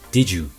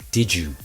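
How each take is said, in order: No difference in how they are said.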